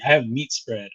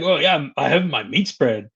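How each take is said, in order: First: Mildly glum mock complaint; understated, downbeat imitation; bummed out. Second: Mildly excited pretend brag; a touch of playful enthusiasm, easing off at the end; mock excited. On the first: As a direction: imitate someone let down by their rations. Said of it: "bummed out". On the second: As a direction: act pleased about your rations. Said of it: "I'd be all excited".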